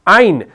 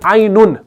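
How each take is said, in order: First: The word ends on a silent, unvowelled n. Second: The word ends with an added 'un' syllable. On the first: It names the letter itself. The speaker calls it right. "हरफ आइन को हम पढ़ रहे हैं" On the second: It becomes the word for eye. The speaker calls it wrong. "हम नहीं पढ़ते हैं आइनुन, वो तो फिर आंख हो गई"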